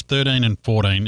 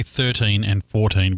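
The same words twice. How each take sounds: First: "thirteen and fourteen" said the Antipodean way; hybridized Queen's English pronunciation. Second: "thirteen and fourteen" said the American way; American pronunciation. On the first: Host corrects Americans on "thirteen and fourteen", hybridized English pronunciation. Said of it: "can't speak the Queen's hybridized English". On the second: Host quotes how Americans say "thirteen and fourteen", American pronunciation. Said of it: "I know Americans say". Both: Shown as a demonstration.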